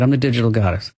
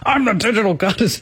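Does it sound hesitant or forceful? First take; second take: hesitant; forceful. First: It is said hesitantly, without conviction. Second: It is said forcefully, with angry conviction.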